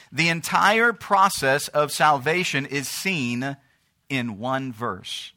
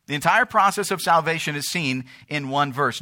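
First: "The entire process of salvation is seen" slow, then pause and drop on "in one verse"; slow emphasis. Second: Said in the usual way. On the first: Real, not acted. Preacher revealing the key point, "in one verse" slow and set apart.

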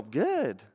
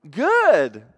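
First: Said in the usual way. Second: High, loud, drawn-out "good"; insistent stock answer. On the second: Acted. Person asked how they are really doing, overbright insistence. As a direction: overdo it to deflect the question.

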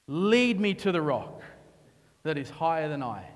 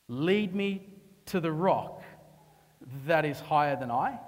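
First: Said in the usual way. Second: Slow tender plea. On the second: Acted. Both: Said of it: "This is David in his hold down".

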